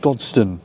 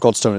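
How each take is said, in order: First: The second vowel is reduced to a schwa. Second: The second vowel is a full vowel. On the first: The speaker calls it right. "The O is reduced to schwa" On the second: The speaker calls it wrong. "It's not Godstone"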